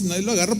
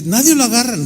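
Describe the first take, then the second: First: "nadie lo agarra" as a falling statement; matter-of-fact answer. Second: "nadie lo agarra" as a question, lifted in pitch; puzzled question. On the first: Bellboy answering the guest with "nadie lo agarra", matter-of-fact. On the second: Hotel guest asking the bellboy about "nadie lo agarra", puzzled question. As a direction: ask "nadie lo agarra" in retold disbelief. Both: Retold or imitated.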